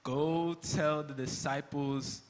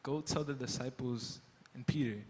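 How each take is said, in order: First: Slow, stressing Go; slow, realizing. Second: Softer, lower, dawning on him; hushed realization. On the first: Peter repeating the angel's words to Jesus, slowly. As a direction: linger on each word as it sinks in. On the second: Peter realizing the angel named him, hushed. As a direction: let it sink in quietly. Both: Acted. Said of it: "The angel said what?".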